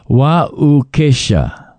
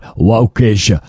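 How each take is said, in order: First: Waukesha drawn out slowly as wah-KEE-sha; stretching out Waukesha slowly, stressing the middle KEE; mispronounced Waukesha. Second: Waukesha said carefully as wah-KEH-sha; a careful, settled Waukesha with a short middle syllable; corrected pronunciation. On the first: Real, not acted. Host teased by co-host, slow drawn-out Waukesha. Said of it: "you're doing it again, Jeffrey". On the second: Shown as a demonstration. Host fixing a name he mangled, careful Waukesha. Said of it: "if I do it right and put my voice in the right".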